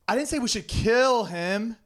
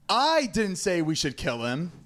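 First: The stress is on the word 'kill'. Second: The stress is on the word 'I'.

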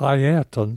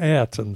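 First: The first name is pronounced carefully and precisely. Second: The first name is pronounced in a loose, sloppy way. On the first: The speaker calls it right. "I had been talking about Ayrton Senna" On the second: The speaker calls it wrong. "I had become sloppy, like a lot of people, and was now calling him Ayrton Senna"

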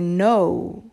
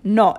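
First: The vowel glides from O toward U. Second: The vowel is a steady, pure O sound. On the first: "In English, we say no" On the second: "No is how you would say it in Italian. No, it's a pure O"

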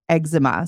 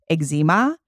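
First: It is said the US way. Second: It is said the Canadian way.

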